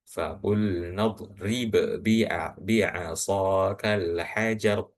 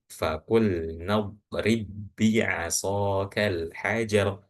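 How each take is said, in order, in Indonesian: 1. Huruf b pertama dipantulkan sebelum b kedua. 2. Huruf b pertama langsung menyatu dengan b kedua. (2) "Jadi dibacanya"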